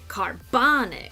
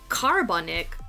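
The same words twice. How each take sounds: First: The stress is on the middle syllable. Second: The stress is not on the middle syllable. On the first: The speaker calls it right. "The bon is where the stress is" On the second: The speaker calls it wrong. "we don't say carbonic"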